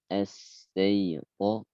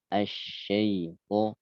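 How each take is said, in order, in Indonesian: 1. Konsonannya bunyi s biasa. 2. Konsonannya bunyi sh, tengah lidah dinaikkan. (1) "Ternyata dibaca ya as" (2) "dengan menekuk tengah lidah"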